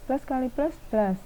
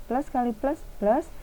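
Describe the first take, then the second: No difference in how they are said.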